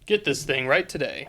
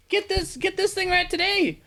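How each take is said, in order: First: Deep announcer voice. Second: High pitched ad pitch. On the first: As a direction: drop into the announcer's boom. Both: Acted. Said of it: "normal T V commercial".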